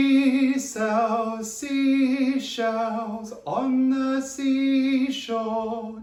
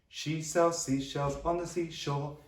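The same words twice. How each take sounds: First: It is said at a normal pace. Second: It is said more quickly.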